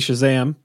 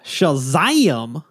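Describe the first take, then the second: First: The word is said in a plain normal voice. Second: The word is said in an exaggerated comic drawl. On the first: The speaker calls it right. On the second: The speaker calls it wrong.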